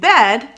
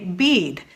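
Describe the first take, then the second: First: The word has a short E vowel. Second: The word has a long E vowel. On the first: "like we do" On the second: "they might say bead"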